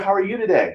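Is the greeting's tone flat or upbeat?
upbeat. The tone is positive, lively and commanding. The speaker seems confident and glad to see them. The speaker calls it right. "Was more commanding, right? Was more positive"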